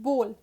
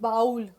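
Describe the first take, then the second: First: The vowel is a plain 'oh' sound. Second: The vowel is not a plain 'oh' sound. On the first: The speaker calls it right. "I have mentioned the phonetical pronunciation. B O H L" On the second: The speaker calls it wrong. "It is not bowl"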